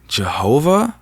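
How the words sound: The word is asked with a questioning rise. A mocking echo that questions the name. "With a question mark"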